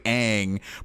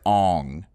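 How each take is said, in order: First: The vowel sounds like the one in 'cat'. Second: The vowel sounds like the one in 'on'. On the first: This is how the name is really said. The speaker calls it right. "It's actually Aang" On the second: This is how the film adaptation says the name. The speaker calls it wrong. "in the movie they pronounce it as Ong"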